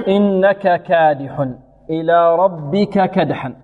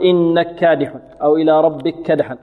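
First: Slow chant, "إنك كادح" with full "ka" before each kaf; both kafs distinct. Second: "إنك كادح" run as "innakkādih"; fuse the kafs in "ربك كدحا" into one double k; merged kafs. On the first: Teacher modelling clear izhar, slow recitation. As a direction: voice the a in "ربك كدحا". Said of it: "يظهر". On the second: Teacher quoting other reciters, assimilated kafs. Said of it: "بعض القراء يضغم يقول". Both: Shown as a demonstration.

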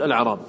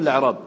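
First: "الأعراب" begun "ala'raab", opening vowel kept; with hamzat al-wasl. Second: "الأعراب" begun straight on the lam, "la'raab"; without initial hamza. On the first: Teacher questioning students on first option, "الأعراب" as "ala'raab". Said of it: "تأتي بهمزة الوصل فتقول". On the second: Teacher questioning students on second option, "الأعراب" as "la'raab". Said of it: "لم تحتج إلى الهمزة". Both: Shown as a demonstration.

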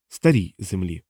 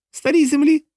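First: Low-key, muted answer; subdued captive. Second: Very high-pitched, disbelieving question; incredulous echo. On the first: John corrects his answer to the interrogators, subdued. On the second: A henchman echoes John's answer, high and incredulous. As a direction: repeat it in startled near-falsetto. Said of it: "повторив один із бугаїв". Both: A narrator's reading.

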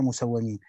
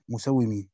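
First: مسومين read musawwamīn, waw doubled with an a after it; مسومين with fatha on the waw; fatha on waw musawwamin. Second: مسومين read musawwimīn, waw doubled with an i after it; مسومين with kasra on the waw; kasra on waw musawwimin. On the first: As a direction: say مسومين with -wwa-. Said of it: "وقرأ الآخرون بفتحها". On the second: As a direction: say مسومين with -wwi-. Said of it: "بكسر الواو". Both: Shown as a demonstration.

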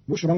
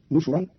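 First: Said in the usual way. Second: "نشرا" said nushuran, u after both consonants; nun and shin with damma. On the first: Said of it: "قرأ قالون كلمة بشرا". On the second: Shown as a demonstration. Teacher shows Qalun's reading, "نشرا" as nushuran. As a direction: open "نشرا" on nu, then shu. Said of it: "بالنون المضمومة والشين المضمومة".

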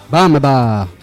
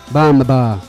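The two takes are said the same way.

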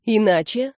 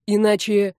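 First: Иначе with rising question tune; questioning echo. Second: Иначе left hanging as a warning; threatening statement. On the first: Girl asking what the threat means, questioning. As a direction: echo Иначе back, lifting at the end. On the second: Musician warning the girl, mildly threatening. Friend threatens, she questions it. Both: A narrator's reading.

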